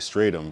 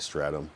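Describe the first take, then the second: First: The first vowel differs from the one in 'stratosphere'. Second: The first vowel matches the one in 'stratosphere'. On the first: The speaker calls it wrong. "I say Stratum" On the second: The speaker calls it right. "it's probably Stratum. Like Stratosphere"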